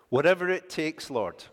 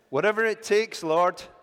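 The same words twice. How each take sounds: First: It is said plainly, with little energy. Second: It is said with lots of gusto.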